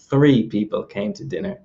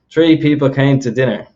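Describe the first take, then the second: First: Said in the usual way. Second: "Three" said as "tree", with a hard T; Irish TH as T. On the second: Shown as a demonstration. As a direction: start "Three" with T instead of TH, Irish style. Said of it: "let's look at the example here".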